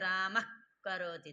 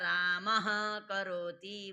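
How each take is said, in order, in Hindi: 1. विसर्ग जीभ के पिछले हिस्से पर रगड़ खाकर बनता है। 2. विसर्ग एक पूरी साँस वाली 'ह' जैसी ध्वनि है। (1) "जब जुहा मूल्य विसर्ग रहेगा तो जुहा का मूल उच्चारण स्थान रहे" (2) "जब भाई पूरा होता है"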